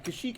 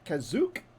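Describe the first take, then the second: First: The middle consonant is an 'sh' sound. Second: The middle consonant is a 'z' sound. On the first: This is the usual way the name is said. "as it's known uh, normally" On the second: This is how one particular film says the name. "they pronounce it Kazook"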